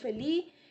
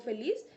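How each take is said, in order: First: The word ends without its final consonant sound. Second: The word ends with its final consonant sound. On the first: This is how a child with a speech disorder says it. "la pronuncian felí" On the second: This is the usual pronunciation. "en vez de pronunciar palabras como feliz"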